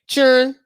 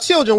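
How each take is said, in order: First: The word sounds like cheering, without the L. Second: The word has its full standard pronunciation. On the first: This is how the speaker's community says it. "we say children children children" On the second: This is how other people say it. "we don't say uh children"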